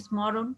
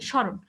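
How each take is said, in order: First: স্মরণ with the m sounded, "smo-ron"; m pronounced. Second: স্মরণ as "sho-ron", no m; m left silent. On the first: Teacher testing the class, স্মরণ said with audible m. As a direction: say স্মরণ as spelt, "smoron". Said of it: "শুরুতে যে ম আছে আমরা কি উচ্চারণ করি". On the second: Teacher giving the class the answer, স্মরণ said "shoron". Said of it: "আমরা কি করি?". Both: Shown as a demonstration.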